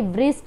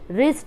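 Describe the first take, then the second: First: The word begins with a W sound. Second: The word begins directly with an R sound. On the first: The speaker calls it wrong. "ऐसे ही व्रिस्ट नहीं बोलते" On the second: The speaker calls it right. "रिस्ट बोलते हैं"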